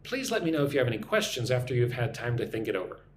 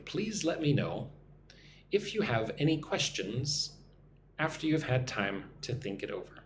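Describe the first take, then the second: First: The sentence is spoken at normal speed. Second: The sentence is spoken slowly. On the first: "let me say this at a normal speed" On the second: "One more time, nice and slowly"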